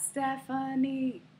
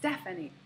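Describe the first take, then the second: First: The middle syllable has a full vowel. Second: The middle syllable has a reduced schwa vowel. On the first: The speaker calls it wrong. "This is not Stephanie" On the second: The speaker calls it right. "it is Stephanie. ... The middle syllable is a, the schwa"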